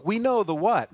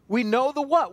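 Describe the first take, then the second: First: "know" pressed and falling, "what" light; stress on know. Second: "what" punched with a falling end; we know the WHAT; stress on what. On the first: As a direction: lean on the word "know". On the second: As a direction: land hard on "what". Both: Acted. Preacher repeats line, shifting stress.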